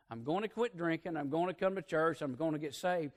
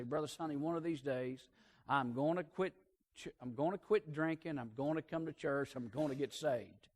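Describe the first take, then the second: First: Said in the usual way. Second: Soft, subdued retelling of a weepy vow; imitated tearful promise. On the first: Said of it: "Now notice their progression". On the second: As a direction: lightly mimic a tearful drinker, voice dropped.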